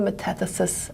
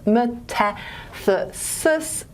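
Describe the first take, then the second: First: Said in the usual way. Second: "metathesis" drawn out very slowly, each syllable separate; very slow, spelled-out "me-ta-the-sis". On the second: Shown as a demonstration. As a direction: sound out "metathesis" piece by piece for the class. Term broken down syllable by syllable.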